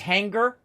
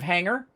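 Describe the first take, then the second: First: The G sound is strongly pronounced. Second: The G sound is weak or absent. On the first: This is how his wife with a Southern accent says it. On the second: This is the usual way he says it.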